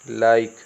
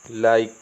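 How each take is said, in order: No difference in how they are said.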